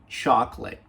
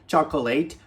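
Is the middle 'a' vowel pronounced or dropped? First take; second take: dropped; pronounced. First: The middle vowel is left out. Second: The middle vowel is clearly pronounced. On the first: The speaker calls it right. "esquece o A" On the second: The speaker calls it wrong. "nunca mais fale chocolate"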